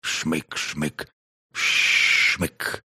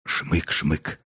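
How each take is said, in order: First: Sniffing sound. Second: Two quick soft sniffs; sniffing sound. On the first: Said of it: "проскрипела рассказчица". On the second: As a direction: sniff the air twice. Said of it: "Четвёртый принюхался". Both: A narrator's reading.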